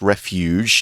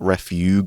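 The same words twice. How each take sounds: First: The G is said with a soft sound. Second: The G is said with a hard sound. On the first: The speaker calls it right. "that is a soft G. It's refuge" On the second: The speaker calls it wrong. "not refuge or anything like that"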